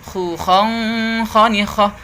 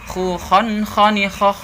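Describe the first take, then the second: The two takes are said the same way.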